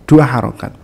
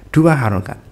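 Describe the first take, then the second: Both takes have the same delivery.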